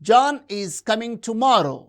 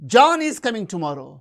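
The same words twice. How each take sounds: First: No single word gets special contrastive stress. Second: The stress falls on the word John. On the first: It is a plain statement of fact. "It is a normal statement" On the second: This person is coming rather than someone else. "not Mary"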